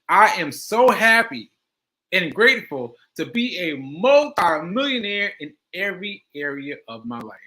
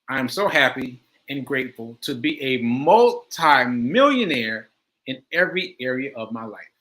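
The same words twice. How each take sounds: First: It is said with strong emotional feeling. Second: It is said plainly, without much feeling.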